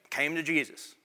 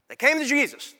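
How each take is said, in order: First: Said in the usual way. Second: "came" hit higher and firmer; stress on came. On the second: Shown as a demonstration. Pastor stressing to his church, "came" punched.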